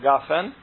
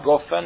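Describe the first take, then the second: First: It starts with a hard g and an a vowel. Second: It starts with a hard g and an o vowel. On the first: "és nem a gafen" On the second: "Nem a goffen"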